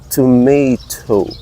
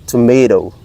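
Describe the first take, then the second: First: It is said with a British accent, crisp T. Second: It is said with an American accent, soft D-like T. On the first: "Very enunciated, the T" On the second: "the T at the ending part of the toe become dough, D"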